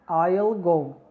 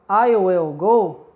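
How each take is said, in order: First: Will is shortened and joined onto the pronoun. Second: Will is said in full as a separate word. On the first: This is the informal form. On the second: This is the formal form.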